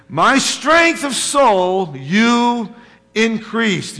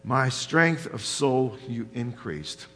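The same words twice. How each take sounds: First: Very slow, higher, louder, each word leaned on; slow emphatic quote. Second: Said in the usual way. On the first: Shown as a demonstration. Preacher stressing the verse to the congregation, slow and emphatic. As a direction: savour "My strength of soul you increased" word by word. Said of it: "look what David writes". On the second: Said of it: "In verse three it says".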